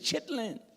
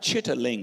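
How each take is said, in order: First: The word is said with two syllables. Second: The word is said with three syllables. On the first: The speaker calls it right. "it's chitlins" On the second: The speaker calls it wrong. "It's not chitterlings"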